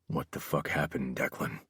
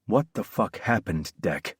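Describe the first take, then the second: First: Low, very quiet menace; hushed, dangerous insistence; repeated demand. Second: Controlled, steely demand; hard, restrained question. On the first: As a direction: ask it with quiet, lowered voice. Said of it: "I asked again". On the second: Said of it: "Steel lined my tone". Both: A narrator's reading.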